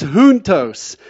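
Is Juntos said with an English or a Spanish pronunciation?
Spanish. It is said with a Spanish-style pronunciation. The speaker calls it right. "it's Juntos"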